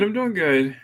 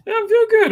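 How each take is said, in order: First: Said in the usual way. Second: Pitched way up, playful; high squeaky voice. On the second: Acted. Repeats greeting in high voice.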